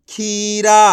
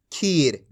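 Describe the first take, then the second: First: खीरा with a long, loud आ after र; drawn-out ending. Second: खीर ending on र, no आ, pitch dropped; no final vowel. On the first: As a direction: stretch the रा at the end of खीरा. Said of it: "रा को खींच के पढ़ देंगे". (खीरा, रा को खींच के) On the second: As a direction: close खीर low on a bare र. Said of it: "आ की मात्रा नहीं होती". (खीर, बिना आ की मात्रा) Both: Shown as a demonstration.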